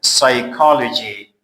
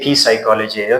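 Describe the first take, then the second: First: The word starts with an s sound. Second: The word starts with a p sound. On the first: The speaker calls it right. "P is silent" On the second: The speaker calls it wrong. "Don't say P psychology"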